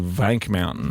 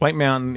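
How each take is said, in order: First: The first word begins with a V sound. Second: The first word begins with a W sound. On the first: The speaker calls it right. "It's actually Vank Mountain" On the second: The speaker calls it wrong. "I think I was mispronouncing it"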